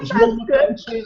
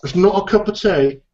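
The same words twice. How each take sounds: First: Mock English accent, much higher, laughing; shrieky laughing English accent. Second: Mock English accent, higher; a hammed-up English correction; half-hearted English accent. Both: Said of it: "do an English accent".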